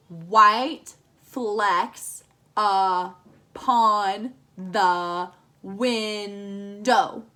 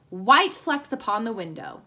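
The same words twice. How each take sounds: First: Very slow, each syllable counted apart. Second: Said in the usual way. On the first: Shown as a demonstration. Teacher counting syllables for the class, very slow and separated. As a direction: tap out every syllable slowly. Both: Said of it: "It should have seven syllables".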